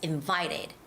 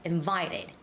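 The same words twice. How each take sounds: First: The stress is on the second syllable. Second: The same.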